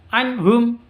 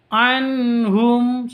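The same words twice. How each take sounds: First: The n and h are not said clearly. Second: The n and h are each clear and smooth. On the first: The speaker calls it wrong. "Tidak boleh dibaca anhum" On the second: The speaker calls it right. "nun matinya jelas, ha-nya juga jelas. Tidak boleh disentak. Anhum, seperti itu"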